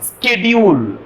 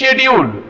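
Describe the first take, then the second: First: The word begins with an sk sound. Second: The word begins with an sh sound. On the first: "எஸ்கேன்ற சவுண்ட்ல pronounce பண்ணுவாங்க" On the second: "எஸ்ஹெச்ன்ற sound வரும்"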